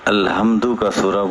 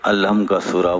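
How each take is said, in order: First: The word is said fully, ending with 'du'. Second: The word is clipped, ending after 'alham'. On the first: This is how it ought to be named. The speaker calls it right. "अलहम्दु का सूरा बोलना चाहिए" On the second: This is the common casual way of naming it. The speaker calls it wrong. "अलहम का सूरा बोलते आप।"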